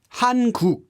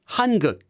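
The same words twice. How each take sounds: First: The second syllable has an 'u' vowel. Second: The second syllable has an 'uh' vowel. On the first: The speaker calls it right. "it should be 한국, u, u" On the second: The speaker calls it wrong. "it sounded almost like you were saying 한국"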